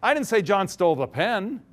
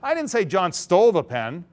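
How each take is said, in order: First: The stress is on pen. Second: The stress is on stole.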